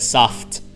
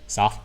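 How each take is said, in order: First: The final T is clearly pronounced. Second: The final T is barely pronounced at all. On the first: "Whereas they were pronouncing it soft" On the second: "I pretty much don't even pronounce the last T"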